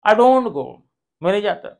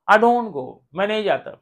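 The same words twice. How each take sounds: No difference in how they are said.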